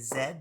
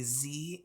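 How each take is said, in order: First: The letter is said as Canadian zed. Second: The letter is said as American zee.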